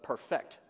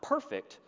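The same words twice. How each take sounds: First: The stress is on the second syllable. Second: The stress is on the first syllable. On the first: It is the verb meaning to make flawless. "but perfect as a verb" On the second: It is the adjective meaning flawless. "Not perfect"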